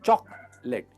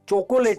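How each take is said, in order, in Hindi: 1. यह शब्द दो अक्षरों में बोला जाता है। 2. यह शब्द तीन अक्षरों में बोला जाता है। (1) "चॉक लेट, L E T वाला लेट" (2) "चोकोलेट नहीं"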